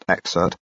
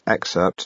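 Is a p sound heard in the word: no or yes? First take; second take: no; yes. First: The word is said without a p sound. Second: The word is said with a clear p sound. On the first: The speaker calls it wrong. "not excerpt" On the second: The speaker calls it right. "remember there's a P in that word, a lot of people forget that, it's excerpt"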